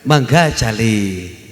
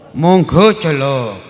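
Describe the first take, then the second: First: The vowels are mostly open 'a' sounds. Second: The vowels are mostly rounded 'o' sounds. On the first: "Kalau Sunda lebih banyak A" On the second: "kalau Jawa lebih banyak O"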